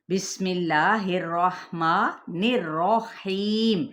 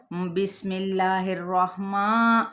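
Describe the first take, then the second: First: Whole line slow, with a plain ma in الرحمن, no nasal; correct slow recitation. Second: الرحمن with a nasal ma, as in ماں; nasal mistake. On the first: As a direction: recite the whole بسم اللہ الرحمن الرحیم correctly and slowly. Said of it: "موٹا کر کے". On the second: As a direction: model the common error, recite الرحمن through the nose. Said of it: "ناک میں سے آواز نکالی جاتی ہے". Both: Shown as a demonstration.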